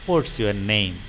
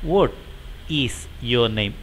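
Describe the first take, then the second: First: What and is are joined into one word. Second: What and is are said as two words.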